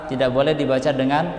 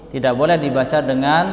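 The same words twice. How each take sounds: No difference in how they are said.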